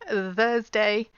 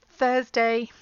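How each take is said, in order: First: The th is voiced, with throat vibration. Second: The th is unvoiced, with only air. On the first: The speaker calls it wrong. "that's the voice sound" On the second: The speaker calls it right. "just the air coming between your top teeth and your tongue"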